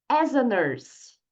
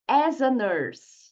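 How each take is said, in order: Both takes have the same delivery.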